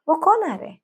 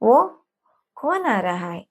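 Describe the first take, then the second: First: The words are run together into a shortened form. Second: Every word is said in full. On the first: "short ചെയ്ത്" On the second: "നീട്ടി വലിച്ച് ചോദിക്കാൻ ബുദ്ധിമുട്ടായിരിക്കും"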